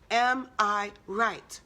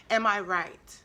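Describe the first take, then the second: First: Drawn out word by word, "Am... I... right"; slow, deliberate repeat. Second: Said in the usual way. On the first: Real, not acted. Speaker urging listeners to question themselves, slow and deliberate. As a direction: weigh each word of the question very slowly.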